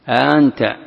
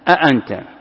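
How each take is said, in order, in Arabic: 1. الهمزة الثانية مُخفَّفة، وليست همزة تامة. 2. كلتا الهمزتين تُنطقان كاملتين. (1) "تسهيل بين بين" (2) "بتحقيق الهمزتين"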